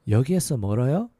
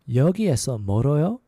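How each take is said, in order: Both takes have the same delivery.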